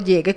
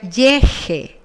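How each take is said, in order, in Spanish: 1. La consonante del medio es una g fuerte. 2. La consonante del medio es un sonido de j áspero. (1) "tengo llegue con u" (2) "si lo escribo sin la u sería"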